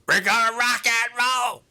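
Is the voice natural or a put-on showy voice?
put-on. It is said in a forced, showy voice.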